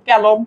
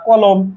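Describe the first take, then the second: First: The first vowel is an 'ae' sound. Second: The first vowel is an open 'o' sound. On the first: The speaker calls it wrong. "ক্যালম যদি বলতাম তাইলে এটাকে এ উচ্চারণ হইতো" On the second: The speaker calls it right. "কলমকে আমরা কলমই বলতেছি"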